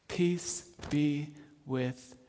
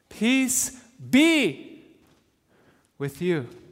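First: The stress is on the word you. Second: The stress is on the word be.

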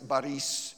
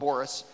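First: It is said with a Russian pronunciation. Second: It is said with an American pronunciation. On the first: The speaker calls it right. "it's Boris is the right way to say it" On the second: The speaker calls it wrong. "you Americans would call him Boris"

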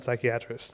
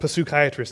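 First: The initial P sound is silent. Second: The initial P sound is pronounced. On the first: The speaker calls it wrong. "not psychiatrists" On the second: The speaker calls it right. "you pronounce the P. There are no silent Ps. So actually they're called psychiatrists"

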